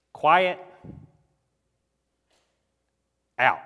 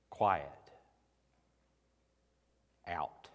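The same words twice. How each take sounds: First: Loud, abrupt one-word commands; stern rebuke. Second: Low-pitched, hushed one-word commands; understated stern command. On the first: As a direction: snap out each command, pausing between. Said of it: "Jesus said sternly with rebuke". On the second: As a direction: lower the voice and let each command fall. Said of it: "Jesus has to say such things sternly". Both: Retold or imitated.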